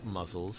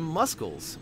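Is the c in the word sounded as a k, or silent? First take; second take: silent; k sound. First: The c is silent. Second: The c is sounded as a k.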